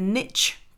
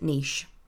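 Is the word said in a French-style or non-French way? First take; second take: non-French; French-style. First: The word is said with a non-French pronunciation. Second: The word is said with a French-style pronunciation. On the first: This is how the other group of listeners says it. "Those of you in the niche camp" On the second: This is how it is said locally, near France. "I'm going to pronounce it niche because it's a French word"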